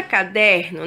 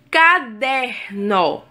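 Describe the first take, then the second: First: Said in the usual way. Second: "Caderno" drawn out slowly in three separate syllables. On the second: Shown as a demonstration. Teacher showing syllable separation, syllable by syllable. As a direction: break "Caderno" into three slow, even beats. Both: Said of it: "na separação silábica".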